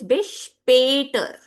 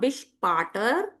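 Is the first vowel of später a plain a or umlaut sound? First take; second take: umlaut; plain a. First: The stressed vowel is the umlaut sound. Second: The stressed vowel is a plain a sound. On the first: The speaker calls it right. "When these two dots come, the sound will become A" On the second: The speaker calls it wrong. "So it is not bis später"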